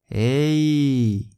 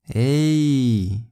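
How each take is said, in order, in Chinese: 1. 它的语气开心、活泼。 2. 它的语气开心、活泼。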